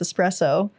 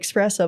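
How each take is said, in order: First: The word begins with an 'es' sound. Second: The word begins with an 'ex' sound. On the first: The speaker calls it right. "but it's espresso. There's no X" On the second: The speaker calls it wrong. "people say espresso"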